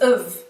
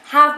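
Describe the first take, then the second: First: The word is weakened to a schwa, like of. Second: The word is said with a full vowel and h.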